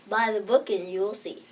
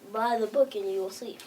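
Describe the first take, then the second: First: It is said loudly. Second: It is said quietly.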